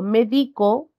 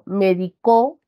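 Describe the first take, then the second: First: The stress is on the second syllable. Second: The stress is on the last syllable. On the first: "Ya se encuentra en la penúltima sílaba" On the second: "este acento que recae en la última de sus sílabas"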